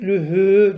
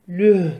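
First: The word ends with a lengthened vowel after h. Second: The word ends abruptly on the h sound. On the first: The reciter continues without stopping. "Geçseydik lühü diye uzatacak idik" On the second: The reciter stops at this word. "durduğumuz için lüh diye duruyoruz"

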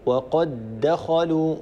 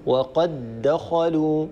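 First: The two d sounds merge into one doubled d. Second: The same.

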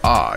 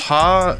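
First: The word begins with a vowel, no H. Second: The word begins with an audible H sound. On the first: The speaker calls it wrong. "not ah" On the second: The speaker calls it right. "It's ha, You can hear the H whenever someone pronounces it"

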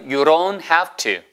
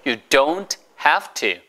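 First: The phrase is said quickly and run together. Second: The phrase is said at a careful, slower pace.

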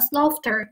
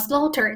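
First: The middle 'gh' is pronounced. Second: The middle 'gh' is not pronounced. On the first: The speaker calls it wrong. "大家千万不要把它发成slaughter，那就不对了哈" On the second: The speaker calls it right. "这个里的gh 是不发音的"

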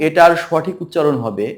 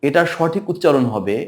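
The two takes are said the same way.

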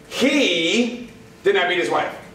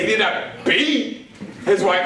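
First: The stress falls on the word 'he'. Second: The stress falls on the word 'beat'. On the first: Somebody else beat his wife. "That means somebody else did" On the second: He hit his wife, but only lightly. "that means he just smacked around a little bit"

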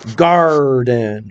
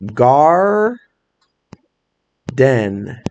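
First: The word is said smoothly without a break. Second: The word is said with a break between syllables.

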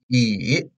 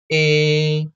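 First: The pitch dips low and then rises. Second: The pitch stays high and level. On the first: "The third tone" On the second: "This is the first tone"

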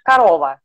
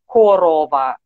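First: It is said in the speaker's own standard pronunciation. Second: It is said in a regional dialect pronunciation. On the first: "I'm used to pronouncing it like a korova" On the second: "some people in other regions, they pronounce it like a korova"

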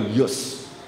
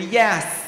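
First: It is said in a flat South African accent. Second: It is said in a lively American accent.

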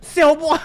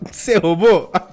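First: It is asked in a harsh, aggressive tone. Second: It is asked in a calm, polite tone. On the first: The questioner is confrontational and accusing. "Se fosse aqui no Brasil, ... Já ia meter o dedão na cara" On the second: The questioner is composed and courteous. "Você vê que os caras são bem tranquilo"

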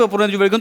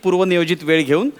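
First: The phrase is spoken at a fast pace. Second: The phrase is spoken at a slow pace. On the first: This is the usual way of speaking. "मी normally असं बोलतो" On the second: It is slowed down so someone can write it. "हे तुझ्यासाठी हळू बोललोय मी"

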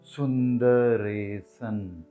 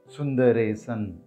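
First: It is said slowly. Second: It is said at normal speed.

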